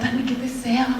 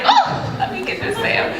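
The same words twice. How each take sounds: First: Said in the usual way. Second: Much higher squeal on Oh, then giddy laughing; thrilled at spotting a makeup sale; excited shopper. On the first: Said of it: "I'm like". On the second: Retold or imitated. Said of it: "you're like".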